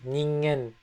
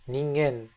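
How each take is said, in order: The two takes are said the same way.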